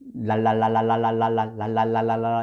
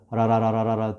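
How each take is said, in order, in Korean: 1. 각 음절이 l 발음이 분명하고 또렷하게 나옵니다. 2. 음절들이 느슨하게 이어져서 흐릿하게 들립니다. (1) "발음을 정확하게 하려고 애를 쓰시면 안 됩니다" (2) "편하게 나온 대로 라라라라라라 두리뭉실해도 괜찮습니다"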